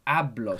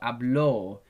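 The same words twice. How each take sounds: First: The stress is on the first syllable. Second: The stress is on the last syllable. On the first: "The accent is on the A" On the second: "put the accent on the O"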